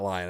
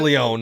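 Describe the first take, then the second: First: The name sounds like 'Lion', with an eye vowel. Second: The name sounds like 'Leon', with an ee vowel. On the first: The speaker calls it wrong. "not Lion. I said it wrong" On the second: The speaker calls it right. "Leon, not Lion"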